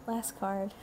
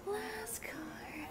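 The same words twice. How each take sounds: First: Said in the usual way. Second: High, soft whispery echo; playful whisper. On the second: Real, not acted.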